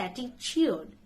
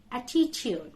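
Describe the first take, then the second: First: "attitude" with a CH, ATTI-chood; mispronunciation. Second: "Attitude" with a clear T, ATTI-tyood; correct pronunciation. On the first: Teacher shows what not to say, "attitude" with CH. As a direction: turn the second T of "attitude" into CH. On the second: Teacher corrects learners, "Attitude" with T, no CH. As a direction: keep both Ts in "Attitude". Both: Shown as a demonstration. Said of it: "Don't say attitude".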